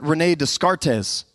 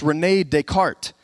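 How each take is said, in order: First: The name ends by sounding the final letters. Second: The name ends without sounding the final letters. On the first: The speaker calls it wrong. "you might say it wrong" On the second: The speaker calls it right. "but it's René Descartes"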